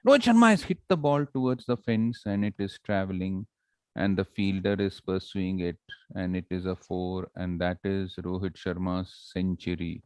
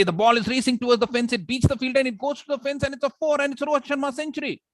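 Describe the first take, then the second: First: Lifeless, monotonous play-by-play, fading down; slow, dull commentary. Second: High, racing cricket commentary; excited play-by-play at full tilt; fast action commentary. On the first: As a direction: drone through the action without any excitement. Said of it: "But suppose I say". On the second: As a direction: race through it, pitch climbing to a peak. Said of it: "speak fast when there is action". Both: Shown as a demonstration.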